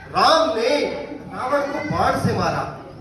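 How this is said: The word राम is stressed.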